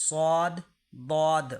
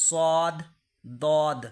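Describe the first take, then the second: The two takes are said the same way.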